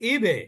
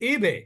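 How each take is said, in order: No difference in how they are said.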